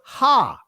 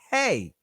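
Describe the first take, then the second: First: The letter name ends in an 'ah' vowel. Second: The letter name ends in an 'ay' vowel. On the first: This is the ancient pronunciation. "but Ha" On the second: This is the modern Israeli pronunciation. "In the Israeli language, it's pronounced Hey"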